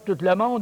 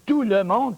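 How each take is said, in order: First: The final t of tout is pronounced. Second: The final t of tout is silent. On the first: The speaker calls it wrong. "On ne dit pas" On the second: The speaker calls it right. "on dit tout le monde parce que le est du masculin"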